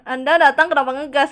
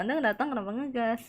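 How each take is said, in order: First: Loud chat read. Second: Said in the usual way. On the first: Retold or imitated. Ditanyain tuh.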